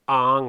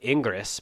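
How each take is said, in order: First: The name is said as one short syllable. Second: The name is read out as it is spelled. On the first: The speaker calls it right. "It's Ang" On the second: The speaker calls it wrong. "it looks like Ingres, but that's not how you pronounce it"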